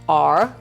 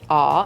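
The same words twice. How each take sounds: First: An R sound is heard at the end. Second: No R sound is heard at the end. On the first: "instead of R" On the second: "non-rhotic. So I say R"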